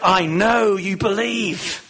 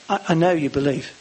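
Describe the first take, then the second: First: It is said with strong, fervent passion. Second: It is said plainly and directly. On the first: An emotional appeal to the listener. "Did he say it with real passion?" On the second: A firm, straight statement of fact. "Or did he just say it directly?"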